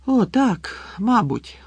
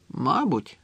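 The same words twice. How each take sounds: First: High, relieved sigh falling away; higher-pitched, easing down with relief. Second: Mildly gloomy, falling agreement; understated, morose concession; glum. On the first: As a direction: let the relief out as you agree. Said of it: "полегшено зітхнув Гаррі". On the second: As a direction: agree without any cheer. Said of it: "похмуро погодився Рон". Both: A narrator's reading.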